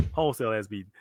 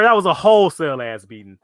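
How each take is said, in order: First: Lower, much softer repeat of "Wholesale ass beating"; "Wholesale ass beating" said again low and quiet, savoring it; quiet echo. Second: Said in the usual way. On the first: Shown as a demonstration. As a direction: mutter "Wholesale ass beating" back under your breath.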